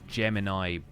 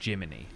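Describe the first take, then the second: First: The name is said like the word Gemini. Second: The name is said like Jiminy Cricket. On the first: This is how the name is written. "there is a character whose name is Gemini" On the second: This is how the game says the name. "they pronounce it Jiminy, like Jiminy Cricket"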